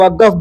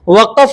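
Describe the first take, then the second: First: The word is said with a 'g' sound. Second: The word is said with a deep 'q' sound. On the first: This is how people say it in local speech. "लोग वक़्फ़ बोलते हैं" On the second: This is how the word is written. "वक़्फ़ लिखा जाता है"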